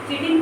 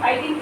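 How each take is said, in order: First: It begins with a 'ch' sound and short 'i'. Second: It begins with a 'k' sound and 'eye'.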